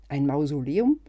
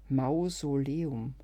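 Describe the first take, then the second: First: Loud, incredulous rise on Mausoleum; surprised question. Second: Mausoleum drawn out very slowly; slow realisation. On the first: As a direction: blurt out Mausoleum in disbelief. Ungläubige Rückfrage zum Einkaufszettel. (ungläubig und laut nachgefragt) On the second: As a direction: savour Mausoleum as the pun sinks in. Versteht das Wortspiel langsam. (langsam und begreifend) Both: Acted.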